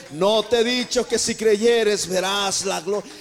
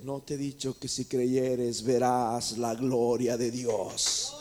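First: Much louder, slow, insistent repeat of the question; booming repeat. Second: Low, slow Jesus voice. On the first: Jesus pressing Marta to believe, booming and slow. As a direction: thunder it out the second time. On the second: Jesus gently rebuking Marta, low and slow. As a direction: lower and slowed, a grave deliberate question. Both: Acted.

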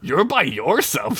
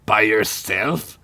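First: "You're" pitched up, said slowly; slow retort with a high "You're"; pointed out. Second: Slow, scoffing question; laughed. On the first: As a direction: throw it back, leaning on "You're". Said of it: "Sid pointed out". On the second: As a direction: ask it slowly, in mocking disbelief. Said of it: "Gunk laughed". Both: A narrator's reading.

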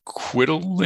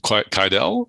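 First: QUIDDLE said as "KWID-ul", rhyming with riddle; alternative pronunciation. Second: QUIDEL said as "kai-DELL"; alternative pronunciation. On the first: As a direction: stress the first syllable of Quiddle, swallowing the second. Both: Shown as a demonstration. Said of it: "on the pronunciation".

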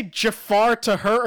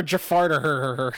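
First: "Jafar to her" as separate words. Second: "Jafar to her" blurred into "Jafarted her"; run together. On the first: Co-host checks what was said, "Jafar to her" in separate words. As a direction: keep "to" apart from "Jafar". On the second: Co-host checks what was said, "Jafar to her" run together as "Jafarted her". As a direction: slur "Jafar to" into one word, "Jafarted". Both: Shown as a demonstration. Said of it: "like he Jafarted".

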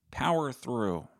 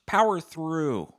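First: Said in the usual way. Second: Loud, slow, high push of "Power through"; rallying shout, drawn out; loud rallying cry. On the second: Pretend. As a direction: bellow it like a coach.

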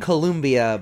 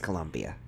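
First: Columbia said as spelled, like the country, stressed LUM; spelling pronunciation. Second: Columbia said the local South Carolina way, quieter and lower; local pronunciation. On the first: Host correcting the city name, saying it as spelled. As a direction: read Columbia off the page, letter by letter as written. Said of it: "it's spelled Columbia". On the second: Host correcting guest's pronunciation of the city, local way. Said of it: "but it's pronounced Columbia". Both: Shown as a demonstration.

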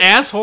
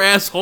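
First: "asshole" ending in an r-like "hore"; asshole as ass-whore. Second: Said in the usual way. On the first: Shown as a demonstration. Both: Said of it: "You said, is it asshole or asshole".

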